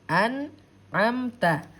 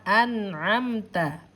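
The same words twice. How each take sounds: The two takes are said the same way.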